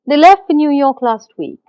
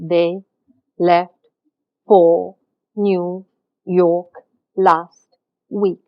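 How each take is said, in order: First: The words flow together quickly without pauses. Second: Each word is spoken separately with pauses between. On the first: The speaker calls it right. "we speak fast" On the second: The speaker calls it wrong. "We do not speak like that in real life"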